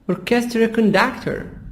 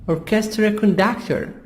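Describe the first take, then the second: Both takes have the same delivery.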